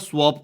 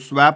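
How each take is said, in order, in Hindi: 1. स्वर 'cot' के 'o' जैसा सुनाई देता है। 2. स्वर 'cat' के 'a' जैसा सुनाई देता है। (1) "स्वॉप बोलते हैं उसको" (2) "वो स्वैप नहीं होता"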